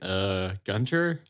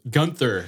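First: The middle consonant is a plain t sound. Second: The middle consonant is a th sound. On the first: The speaker calls it right. "There's no H" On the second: The speaker calls it wrong. "like somehow added an H to it. So it was like Gunther"

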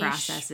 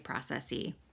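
First: The last syllable ends with a short 'iz' sound. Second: The last syllable ends with a long 'eez' sound. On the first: It sounds plain, not fancy. "I always say documented niche, processes" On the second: It sounds fancy. "I don't say processy"

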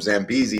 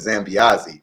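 First: The name is said with an anglicized pronunciation. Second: The name is said with an Italian pronunciation. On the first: This is how the name was said before the change. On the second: This is the name's official changed pronunciation.

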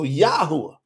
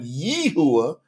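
First: The first syllable has an 'ah' vowel. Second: The first syllable has an 'eh' vowel. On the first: The speaker calls it right. "we go A-H" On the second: The speaker calls it wrong. "instead of going Yehuah"

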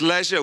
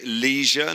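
First: It is said with a British pronunciation. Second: It is said with an American pronunciation. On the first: This is how the speaker's own country says it. "Listen, it's leisure. We invented this language" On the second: This is how the audience says it. "you say leisure"

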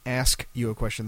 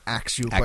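First: The first word is said as 'ask'. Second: The first word is said as 'aks'. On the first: "instead of saying"

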